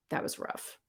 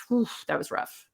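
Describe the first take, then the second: First: Breathy whisper, no voice. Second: Said in the usual way. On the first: Real, not acted. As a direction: whisper it to yourself.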